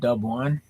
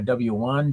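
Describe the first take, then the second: First: The letter is clipped to the single syllable dub. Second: The letter is said in full as double-u. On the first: This is how people in Washington say it. "We will say Dub, like U Dub" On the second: This is the general way to say it. "we don't say W"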